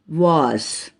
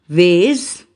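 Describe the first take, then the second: First: It is said with a British accent. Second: It is said with an American accent. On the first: "British pronunciation" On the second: "American pronunciation"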